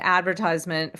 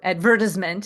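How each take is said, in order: First: It is said the American way. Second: It is said the British way.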